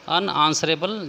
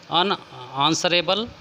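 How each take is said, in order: First: Said in the usual way. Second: Slow, careful dictation of अनआंसरेबल; teacher slowly drawing out अनआंसरेबल for students; slow, drawn-out word. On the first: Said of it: "जिसका उत्तर न दिया जा सके". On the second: Shown as a demonstration. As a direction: stretch out अनआंसरेबल syllable by syllable. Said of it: "जिसका उत्तर दिया जा सके".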